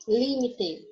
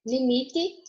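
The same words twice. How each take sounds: First: Limite with the stress on LI. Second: Limite with the stress on MI. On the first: Teacher gives the Spanish take, stress on LI in limite. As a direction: say limite as LÍmite, falling. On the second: Teacher gives the Portuguese take, stress on MI in limite. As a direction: say limite as liMIte, rising. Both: Shown as a demonstration. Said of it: "só muda a sílaba tônica".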